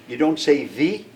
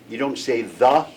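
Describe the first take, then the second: Both takes have the same delivery.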